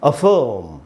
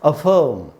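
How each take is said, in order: Both takes have the same delivery.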